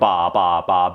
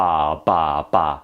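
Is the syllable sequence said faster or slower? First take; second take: faster; slower. First: The syllables are said at a faster pace. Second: The syllables are said at a slower pace.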